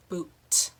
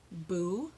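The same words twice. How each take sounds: First: BOOT, then a strongly released T; clear final T. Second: BOO with nothing after the vowel; open ending. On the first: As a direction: set the t of boot apart and pop it. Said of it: "There's a sound on the end of boot". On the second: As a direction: let boo end on its long vowel. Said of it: "Did you hear the difference?". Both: Shown as a demonstration.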